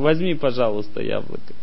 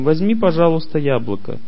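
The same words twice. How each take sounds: First: It is said in an arrogant tone. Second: It is said in a warm, sincere tone. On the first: The speaker feels superior to the listener. The speaker calls it wrong. "Это означает высокомерие" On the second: The speaker would be happy if the apple is taken. The speaker calls it right. "я считаю, что для меня это большое счастье, если ты возьмешь яблоко"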